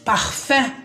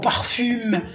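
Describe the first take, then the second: First: The word ends in a nasal vowel, no m. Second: The final m is pronounced after an oral vowel. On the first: The speaker calls it right. "نو parfum" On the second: The speaker calls it wrong. "ما نقولش parfum أو parfume"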